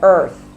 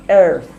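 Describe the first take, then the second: First: EARTH said with an ER vowel, louder; Jamaican pronunciation. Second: EARTH said with an AIR vowel; other people's pronunciation. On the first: Speaker showing how Jamaicans say earth, demonstrated pronunciation. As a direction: give EARTH the ER sound as in world. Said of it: "we say things like earth". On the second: Speaker showing how other people say earth, imitated pronunciation. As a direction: say EARTH as if it were spelt airth. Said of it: "Them other people say earth". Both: Shown as a demonstration.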